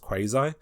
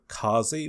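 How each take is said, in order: First: The word begins with a kw sound. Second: The word begins with a plain k sound. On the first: This is how Americans say the name. "which Americans like to pronounce Quasi" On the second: This is the made-up dialect's way of saying the name. "make up this dialect and call it Kazi"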